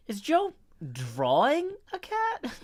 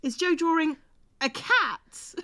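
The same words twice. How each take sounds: First: DRAWING drawn out, slow, swooping up to a high pitch; stress on DRAWING. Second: Pause, then land on CAT; stress on CAT. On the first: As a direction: lean hard and long on the word drawing. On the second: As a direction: hold back, then punch out "a cat". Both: Shown as a demonstration. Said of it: "put emphasis on that sentence".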